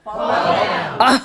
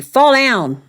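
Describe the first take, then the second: First: Crowd shout. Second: Loud demo. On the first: Real, not acted. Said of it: "That feels so good". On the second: Shown as a demonstration. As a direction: call out Fall down loudly. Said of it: "teach you one line that you need to say".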